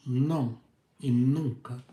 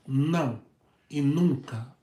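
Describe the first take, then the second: No difference in how they are said.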